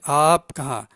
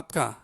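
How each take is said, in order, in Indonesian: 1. Vokal pertama diucapkan panjang. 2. Vokal pertama diucapkan pendek. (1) "Kena panjang sedikit alif tu" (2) "nak cepat kata apka apka"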